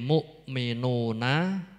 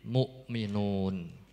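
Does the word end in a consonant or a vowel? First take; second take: vowel; consonant. First: The word ends with a final vowel sound. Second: The word ends on a consonant, no vowel. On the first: The reading continues without stopping. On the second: The reader stops at this word.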